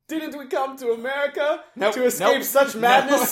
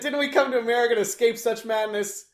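First: It is read in a put-on character voice. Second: It is read in the speaker's natural voice. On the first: "you have to deliver it like in character" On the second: "Read it in your voice"

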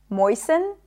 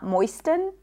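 First: The T sound is not pronounced. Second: The T sound is pronounced. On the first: The speaker calls it right. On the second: The speaker calls it wrong.

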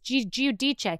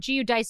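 First: The name is said with Italian pronunciation. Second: The name is said with English pronunciation. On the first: "but it's Giudice" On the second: "if you're not pronouncing it in Italian"

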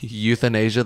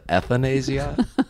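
First: The word begins with a 'you' sound. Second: The word begins with an 'eh' sound. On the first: The speaker calls it right. "instead of the word euthanasia" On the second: The speaker calls it wrong. "they said ethanasia"

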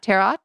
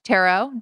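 First: The final T is pronounced. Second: The final T is silent. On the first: The speaker calls it wrong. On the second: The speaker calls it right. "The T is silent at the end"

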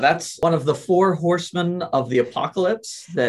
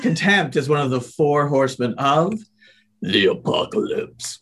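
First: It is said calmly, in ordinary speech. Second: It is said with dramatic intensity.

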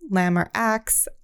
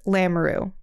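First: The name is said in a distorted, non-French way. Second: The name is said in its French form. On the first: Other people get the name wrong. The speaker calls it wrong. "Some people pronounce it" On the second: This is how the family says the name. The speaker calls it right. "it's pronounced"

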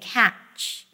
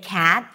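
First: The word ends in a ch sound. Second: The word ends in a plain t sound. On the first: The speaker calls it wrong. "you may hear someone saying catch" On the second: The speaker calls it right. "Instead of saying cat"

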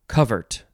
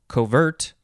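First: The stress is on the first syllable. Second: The stress is on the second syllable. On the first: "And then you could also just say covert" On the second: "You could also just emphasize the second syllable"

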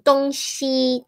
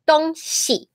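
First: The second syllable has a full high level tone. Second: The second syllable is light and toneless. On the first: It means east and west. "that would be the east and west" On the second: It means things or stuff. "the second tone is different 东西 ... Things"

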